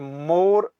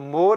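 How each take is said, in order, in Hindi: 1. अक्षर पर बहुत जोर देकर बोला जाता है। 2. अक्षर सादे तरीके से, बिना जोर के बोला जाता है। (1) "पर जोर देकर पढ़ने से इसका अर्थ मुहर हो जाता" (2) "मौ पर जोर देकर न पढ़ने से इसका अर्थ पीठ होता"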